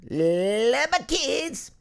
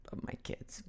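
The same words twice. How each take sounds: First: High, slow drawn-out cry; exuberant declaration. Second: Very soft, voiceless murmur; hushed aside. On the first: Acted. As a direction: stretch it out, climbing high with gusto. Same words, exaggerated loudly. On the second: Real, not acted. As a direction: whisper it under your breath. Aside, then repeated as shout.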